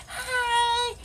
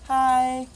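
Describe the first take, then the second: First: Bright, much higher chirpy hi; cheery greeting. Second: Said in the usual way. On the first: Shown as a demonstration. Girl showing how happy she used to greet people, beaming. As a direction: sing out a happy hello. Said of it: "I'd be like".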